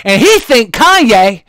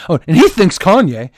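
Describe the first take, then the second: First: "he think [name]" slow, he stressed, dropped s; imitating newsreader's slip. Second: "he thinks [name]" with a clear s on thinks; corrected reading. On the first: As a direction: slowly say "he think [name]" without the s. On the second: Retold or imitated. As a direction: say "thinks" with the s sounded. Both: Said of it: "then she corrected herself".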